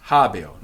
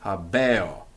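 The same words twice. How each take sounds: First: Habeo stressed on the ha, e thinned to i: HA-bio. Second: Habeo with stress on the e, ha-BE-o, full e; slower habeo, leaning on the e; wrong stress. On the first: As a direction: say habeo as HA-bio, first syllable strong. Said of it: "the accent's on the ha". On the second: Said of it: "not habeo". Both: Shown as a demonstration.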